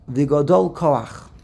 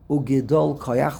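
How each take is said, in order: First: The word is said with a full a: gadol. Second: The word is said with a short e: gedol. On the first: The word stands alone, ending the previous phrase. The speaker calls it wrong. "how is it spelled in the Pasuk? Vigodol" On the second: The word is bound to the following word. The speaker calls it right. "we pronounce it Ugidol"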